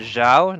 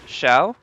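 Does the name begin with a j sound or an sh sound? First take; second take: j sound; sh sound. First: The name begins with a j sound. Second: The name begins with an sh sound. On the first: The speaker calls it right. "more like Jing instead of Xing" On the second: The speaker calls it wrong.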